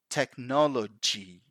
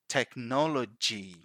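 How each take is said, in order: Both takes have the same delivery.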